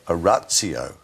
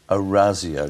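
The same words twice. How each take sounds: First: The z sound is said hard. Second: The z sound is said softly. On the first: The speaker calls it wrong. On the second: The speaker calls it right. "it's a softer Z sound"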